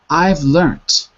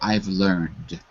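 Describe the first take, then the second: First: It is said in the British form, ending in t. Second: It is said in the American form, ending in d. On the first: "that's British English" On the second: "In America, we would say"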